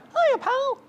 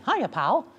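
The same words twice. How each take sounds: First: The voice is pitched too high. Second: The voice is a middle-range falsetto. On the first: The speaker calls it wrong. "If you go too high" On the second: The speaker calls it right. "here's Mickey"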